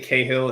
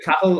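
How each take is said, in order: First: The surname is said the American/UK way. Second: The surname is said in a non-American way. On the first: "Americans and anyone in the U K likes to say Cahill" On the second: "my name is [name]"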